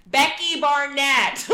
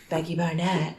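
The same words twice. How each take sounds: First: Louder and slow, over a loud bar; repeated louder. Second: Said in the usual way. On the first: Retold or imitated. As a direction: shout the name again so he hears it. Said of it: "he's like, "What?". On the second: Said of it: "And she's like".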